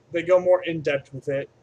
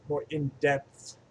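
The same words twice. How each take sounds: First: "in-depth" with the final th hardened to a t; slipped "in-depth". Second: "in-depth" slowly, with a distinct final th; careful pronunciation. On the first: Reviewer stumbling over "in-depth", ending it on a t. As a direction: say "in-depth" like "in dept", in a louder flow. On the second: Reviewer correcting a slip on "in-depth", slow careful th. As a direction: sound out "in-depth" slowly, landing the th. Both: Shown as a demonstration. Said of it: "That's how you pronounce that word".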